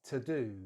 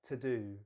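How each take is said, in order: The two takes are said the same way.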